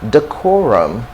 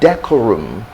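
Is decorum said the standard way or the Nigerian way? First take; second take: standard; Nigerian. First: It is said with the standard pronunciation. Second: It is said with a Nigerian pronunciation. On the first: The speaker calls it right. "the next word we've got is decorum" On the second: The speaker calls it wrong. "So it's not decorum ... This is what a lot of Nigerians would likely tell you"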